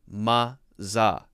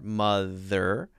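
First: The middle consonant is a z sound. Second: The middle consonant is a voiced th sound. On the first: The speaker calls it wrong. "the TH sound is becoming kind of a Z sound" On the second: The speaker calls it right. "we want to make sure to curl the tongue up at the end of R"

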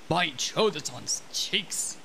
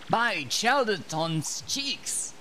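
First: The character voice is much deeper and lower. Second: The character voice is fairly high and light. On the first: The speaker calls it right. "That's, that, that's a lot better" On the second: The speaker calls it wrong. "he has like a way deeper voice than this"

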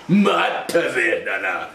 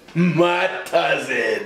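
First: It is said in a deeper voice. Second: It is said in his normal voice.

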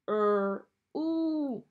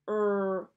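First: The vowel is a long ooh, as in moon. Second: The vowel is short, as in book. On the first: The speaker calls it right. "Let's try the ooh sound" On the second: The speaker calls it wrong. "Let's try the sound first. ... That's not right"

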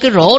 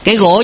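First: The word begins with an r sound. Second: The word begins with a g-like sound. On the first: The speaker calls it right. "chứ không nói cái rổ được" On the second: The speaker calls it wrong. "miền Tây cứ nói cái gỗ không à"

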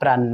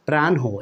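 First: The ending has a doubled n and no h. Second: The ending has an n followed by h. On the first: The speaker calls it wrong. "শেষের নটা double করে দেই, হটা আর পড়ি না" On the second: The speaker calls it right. "এইভাবে কিন্তু সঠিক হবে"

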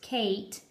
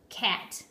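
First: The vowel is long, as in 'Kate'. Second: The vowel is short, as in 'cat'. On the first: The speaker calls it wrong. "So instead of saying k-ate, Kate" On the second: The speaker calls it right. "Whenever you start reading, start with the short vowel sound first"

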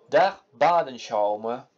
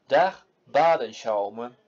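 Both takes have the same delivery.

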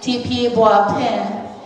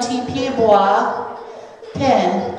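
First: It is said fast, run together. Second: It is said slowly, with a break.

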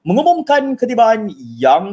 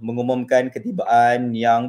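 First: The voice is lively and energetic. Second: The voice is flat and monotonous. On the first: The guest feels welcomed and more confident. The speaker calls it right. "if I were to change it" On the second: The guest does not feel especially welcomed. The speaker calls it wrong. "that monotonous sound"

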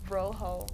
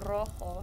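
First: The r is a plain English r, not trilled. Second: The r is trilled as in Spanish. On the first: The speaker calls it wrong. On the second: The speaker calls it right. "no, it's a rojo"

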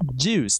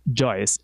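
First: The vowel is a plain long oo sound. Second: The vowel glides like oy. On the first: The speaker calls it right. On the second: The speaker calls it wrong. "not Joyce"

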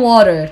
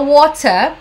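First: It is said with an American accent. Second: It is said with a British accent. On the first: "os americanos falam water" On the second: "a britânica fala water"

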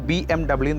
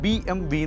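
First: The final letter is said as English double-you. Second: The final letter is said as German vee. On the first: This is how it is said in English. "ഇംഗ്ലീഷിൽ BMW തന്നെയാണ് അത് pronounce ചെയ്യുന്നത്" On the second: This is how it is said in Germany. "ജർമ്മനിയിലാണ് BMW എന്ന് പറയുന്നത്"

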